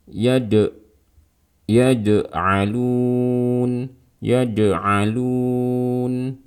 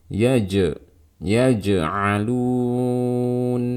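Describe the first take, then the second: First: "ya de alun" with d in place of j; tongue tip touching, turn the jim into d in "ya de", long held "alun"; jim mixed with dal. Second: "ya je alun" with a clean j, no d; mid-tongue j in "ya je", long held "alun"; correct jim. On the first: Teacher demonstrating the second mistake, dal-like jim in "ya de alun". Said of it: "Kalau suara jim tercampur dengan suara". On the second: Teacher correcting the dal mistake, clean jim in "ya je alun". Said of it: "seperti ini aja". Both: Shown as a demonstration.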